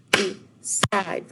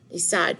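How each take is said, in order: First: "Decide" drawn out in two separate beats; syllable by syllable. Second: Said in the usual way. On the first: Shown as a demonstration. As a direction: count out "Decide" with a break between syllables. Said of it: "see how many syllables we have". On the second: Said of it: "how many syllables we have".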